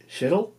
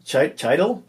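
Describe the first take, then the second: First: "Schittle" with sh and short i, questioning; unsure pronunciation. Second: "Chidle" with ch and long i, questioning; alternative pronunciation. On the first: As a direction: try "Schittle" with a rising, doubtful end. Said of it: "sounds better than Schittle". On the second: Host testing a player's name, "Chidle" with long i, questioning. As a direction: try "Chidle" rhyming with idle, rising. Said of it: "I'll go with Chidle". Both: Shown as a demonstration.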